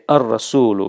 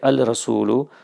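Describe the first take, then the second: First: The l merges into a doubled r sound. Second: The l sound is kept before the r. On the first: The speaker calls it right. "You're going to merge the lam and the ra" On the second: The speaker calls it wrong. "so you won't say al rasulu"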